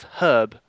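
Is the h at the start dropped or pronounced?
pronounced. The word starts with an audible h sound. This is how the British speaker says it. The speaker calls it right.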